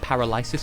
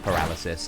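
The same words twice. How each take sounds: First: The word gets a spelling-based, nonstandard pronunciation. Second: The word gets its usual standard pronunciation. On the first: It was learned only from reading the word. The speaker calls it wrong. "as a child, I pronounced it paralysis because I'd only ever seen it written" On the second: This is how people normally say it. The speaker calls it right. "it is actually pronounced paralysis"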